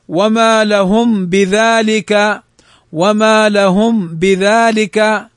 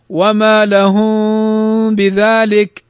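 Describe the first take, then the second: First: Slow recitation with the م of لهم fully closed and clear before ب; clear meem. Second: Slow recitation with the م of لهم hidden in a nasal hum before ب; in "لهم بذلك" hum the م without closing the lips; hidden meem. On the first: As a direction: pronounce the م in "لهم" distinctly, then بذلك. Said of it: "إظهارها كيف ننطقها". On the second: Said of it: "هنا إخفاء". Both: Shown as a demonstration.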